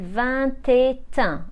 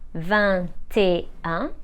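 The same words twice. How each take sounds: First: The t of et links into un. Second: The t of et stays silent before un. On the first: The speaker calls it wrong. "we never link the T at the end of E with un. As a result, we don't say" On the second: The speaker calls it right. "So let's pronounce them again"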